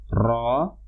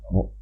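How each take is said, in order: First: The tongue trills the r many times. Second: The tongue taps the r just once. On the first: The speaker calls it wrong. "getaran berlebih" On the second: The speaker calls it right. "perlu digetarkan satu kali"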